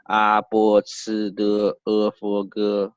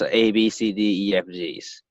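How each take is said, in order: First: The letters are named with Chinese pinyin sounds. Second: The letters are named with English letter names.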